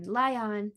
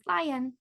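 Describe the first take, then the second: First: "lion" said lie-ON with a full vowel; sounded-out syllables. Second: Said in the usual way. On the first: Shown as a demonstration. Teacher joins the syllables, "lion" sounded out as lie-on. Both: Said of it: "Lie, that's an open syllable".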